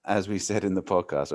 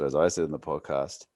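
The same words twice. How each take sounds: First: Said in the usual way. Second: "I" hit as the main word of "as I said in the podcast"; stress on I. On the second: Shown as a demonstration. Host correcting himself to claim credit, stress on "I". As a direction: lean on "I" to correct the "we".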